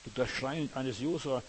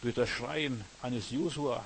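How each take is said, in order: Both takes have the same delivery.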